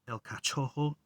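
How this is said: The name is pronounced the Portuguese way. "In in uh, Portuguese, it'd be El Cachorro"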